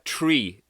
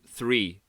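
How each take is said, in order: First: It begins with a plain t sound. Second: It begins with a th sound. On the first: "they don't pronounce the T H, so they would say tr- uh, tree" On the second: "instead of three"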